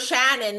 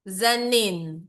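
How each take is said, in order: First: The name begins with an sh sound. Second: The name begins with a z sound. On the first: This is how the name is meant to be said. The speaker calls it right. "My name is Shannon" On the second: Speakers without the sh sound say it this way. The speaker calls it wrong. "Hindi nila masabi talaga kasi wala silang S H"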